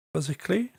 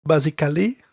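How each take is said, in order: First: Said in the usual way. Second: "Basically" as bah-zee-kah-lee, French accent; hammed-up French accent on "Basically", four syllables. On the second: Shown as a demonstration. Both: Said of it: "with my French accent".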